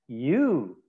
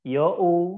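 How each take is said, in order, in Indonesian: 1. Diucapkan sebagai satu suku kata yang halus, yu. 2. Dibaca sesuai ejaannya, seperti yo-u. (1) "kita harus membacanya sesuai pronunciation" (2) "Kalau kita baca seperti orang Indonesia"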